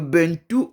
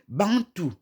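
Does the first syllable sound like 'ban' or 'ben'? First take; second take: ben; ban. First: The first syllable is said as 'ben'. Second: The first syllable is said as nasal 'ban'. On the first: It is the speaker's own reading of the name. "Mais nous, on est Be" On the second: It is the French reading of the name. "en prononciation française, B E N T O U se lit Bantou"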